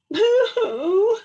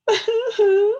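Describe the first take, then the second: First: High, loud boo-hoo wail; mock crying. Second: High boo-hoo wail echoed back; echoing mock crying. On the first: Little Beaver crying by the pond, high mock wail. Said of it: "he said". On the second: The echo across the pond, a high mock wail. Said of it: "said the voice from across the pond". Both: A narrator's reading.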